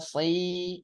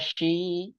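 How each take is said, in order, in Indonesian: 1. Suku katanya diawali bunyi s yang tipis. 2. Suku katanya diawali bunyi sh. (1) "Tipis ya" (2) "Jangan sho, shi"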